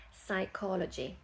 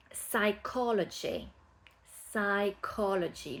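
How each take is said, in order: First: "Psychology" softer, no P; "Psychology" starting on S, quietly; silent P. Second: "Psychology" slowly, no P, starting saikology; silent P. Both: Shown as a demonstration. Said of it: "Le P au début ne se prononce pas".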